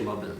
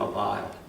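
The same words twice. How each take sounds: First: It is said with an American pronunciation. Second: It is said with a British pronunciation. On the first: "in America, I think we say mobile" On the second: "In England, mobile"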